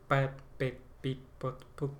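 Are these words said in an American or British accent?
American. An American accent with softer, drawn-out p and t.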